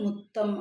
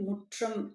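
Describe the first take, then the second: First: The middle consonant sounds like a plain 'tt'. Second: The middle consonant sounds like 'tr'. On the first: This is the colloquial village form of the word. "கொச்சை மொழி பேச்சு வழக்கு முத்தம்" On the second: This is the standard form of the word. "வீட்டின் முன்பகுதி முற்றம் அப்படின்னு சொல்லுவாங்க"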